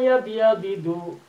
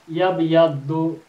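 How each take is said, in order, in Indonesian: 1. Konsonan ganda itu dipisah oleh sebuah vokal. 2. Konsonan ganda itu disatukan menjadi satu bunyi. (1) "Sekarang saya pecah" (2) "itu pastinya disatukan"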